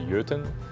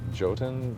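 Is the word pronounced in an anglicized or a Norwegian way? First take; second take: Norwegian; anglicized. First: The word is pronounced in a Norwegian way. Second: The word is pronounced in an anglicized way. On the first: This is how the name is said in its home language. The speaker calls it right. "the correct pronunciation, like Norwegian pronunciation" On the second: This is how the studio says the name. The speaker calls it wrong. "We pronounce it Jotun"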